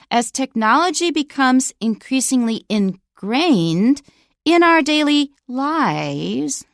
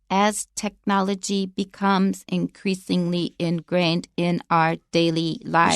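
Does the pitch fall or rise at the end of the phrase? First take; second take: rise; fall. First: The pitch rises at the phrase end. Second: The pitch does not rise at the phrase end. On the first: The speaker calls it right. "listen for the continuation rise when I read this sentence" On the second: The speaker calls it wrong. "So you don't read it like this"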